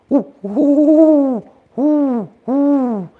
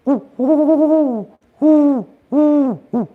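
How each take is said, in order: First: High, loud hooting owl call; a loud owl woo, woo; owl greeting hoot. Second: Owl response hoot. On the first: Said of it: "the way he would greet". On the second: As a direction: answer the hoot and drop at the end. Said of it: "then the response is". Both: Retold or imitated.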